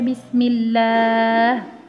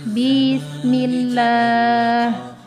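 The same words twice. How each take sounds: First: The first syllable is short. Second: The first syllable is slightly lengthened. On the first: The speaker calls it right. "bismillah dibaca bismillah" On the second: The speaker calls it wrong. "menambah sedikit panjang bi"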